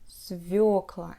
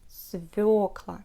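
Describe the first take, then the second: First: The stress is on the yo vowel. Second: The stress is on the yo vowel.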